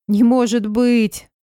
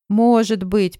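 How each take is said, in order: First: Slow, loud tearful disbelief; crying with happiness. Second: Through tears. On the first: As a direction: gasp it out through happy tears. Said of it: "заплакала от счастья". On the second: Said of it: "проговорила она сквозь слёзы". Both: Acted.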